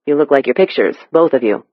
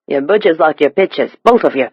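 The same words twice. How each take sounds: First: Said in the usual way. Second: Thick East End Cockney; Cockney accent. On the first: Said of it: "Alex translated". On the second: A narrator's reading. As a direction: say it as a London Cockney stranger. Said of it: "The stranger's Cockney accent was nearly impenetrable".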